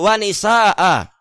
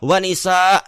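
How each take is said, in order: First: The final glottal stop is clearly pronounced. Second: The final glottal stop is cut off, unvoiced. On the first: The speaker calls it right. "Hamzahnya itu tetap dibaca. Bukan disukun ketika membaca" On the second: The speaker calls it wrong. "Di di sukun di situ cara pembacaannya"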